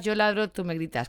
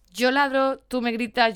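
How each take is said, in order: First: Said in the usual way. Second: Emphatic mock shout. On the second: Acting out dog and owner.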